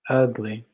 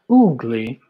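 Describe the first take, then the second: First: The first vowel is a short 'uh' sound. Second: The first vowel is a long 'oo' sound. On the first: The speaker calls it right. "Ugly. Not oogly" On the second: The speaker calls it wrong. "Not oogly"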